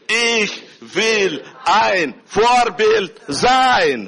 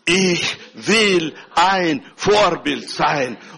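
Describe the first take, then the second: First: It is said lightly, with a smiling tone. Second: It is said firmly, with full conviction. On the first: "ein klein bisschen mit Lächeln" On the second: "aussprechen mit voller Überzeugung"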